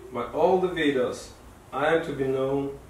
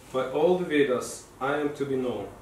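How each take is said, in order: Both takes have the same delivery.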